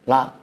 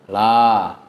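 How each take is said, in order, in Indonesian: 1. Vokalnya dipotong pendek dengan hentian glotal. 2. Vokalnya ditahan panjang tanpa hentian. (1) "banyak yang naroin hamzah sukun situ" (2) "Padahal harusnya panjang"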